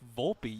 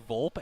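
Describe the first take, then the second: First: The final vowel sound is pronounced. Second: The final vowel sound is dropped. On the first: The speaker calls it right. "you also have to pronounce the e" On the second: The speaker calls it wrong. "I was expecting it to be Volpe"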